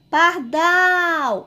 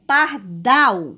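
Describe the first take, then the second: First: "Pardal" called high, with a long stretched "dal"; calling out, last syllable stressed. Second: Said in the usual way. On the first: Shown as a demonstration. Teacher calling the word like a name, "Pardal" with "dal" drawn out high. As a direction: call "Pardal" as if summoning someone, holding the last syllable. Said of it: "Vamos chamar aqui o nome". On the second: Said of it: "Qual a sílaba mais forte".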